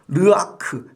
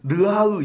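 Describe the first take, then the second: First: The final k sound is fully pronounced. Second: The final k sound is softened, only half said.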